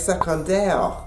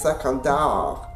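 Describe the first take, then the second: First: It is said with a Parisian French accent. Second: It is said with a Canadian French accent. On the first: "A Parisian would say" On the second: "a French-Canadian would say"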